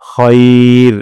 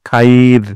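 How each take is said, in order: First: The vowel is a tight, single 'khay' glide. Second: The vowel is an open, separated 'kha-ee' sound. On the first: The speaker calls it right. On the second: The speaker calls it wrong.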